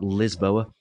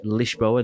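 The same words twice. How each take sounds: First: The name is said with an English pronunciation. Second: The name is said with a Portuguese pronunciation. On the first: The speaker calls it wrong. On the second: The speaker calls it right. "you have to pronounce it in the Portuguese way"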